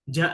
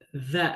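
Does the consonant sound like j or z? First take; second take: j; z. First: The letter starts with a j sound. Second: The letter starts with a buzzing z sound. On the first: The speaker calls it wrong. "Ja lagi, ja lagi, karena kebiasaannya bertahun-tahun" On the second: The speaker calls it right. "Ada orang mengucapkan huruf za"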